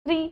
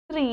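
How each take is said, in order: First: "त्रि" with a short, quick i; "त्रि" said as a brief tri; short vowel. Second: "त्रि" with a long ee; long vowel. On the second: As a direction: stretch the vowel of "त्रि", as tree. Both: Shown as a demonstration. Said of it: "आपको बारह खड़ी".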